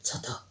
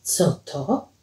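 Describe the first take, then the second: First: Very soft, startled whisper. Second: Soft, low, voiced murmur; hushed question. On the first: Acted. Paweł hears a moan behind the wall, whispering. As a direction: barely breathe the question. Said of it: "szepnął". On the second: Paweł asks Alicja what happened, hushed. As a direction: ask it low and slowly.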